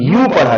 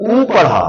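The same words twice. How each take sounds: First: यू with a leading y glide; यू sounded clearly as y plus oo; "yoo" sound. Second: उ as a pure "oo" without a y; उ sounded clearly with no glide; vowel sound "oo". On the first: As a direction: model यू as "yoo". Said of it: "यदि इसका उच्चारण आपने". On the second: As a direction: model उ as the bare vowel "oo". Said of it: "इस वाले शब्द का उच्चारण". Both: Shown as a demonstration.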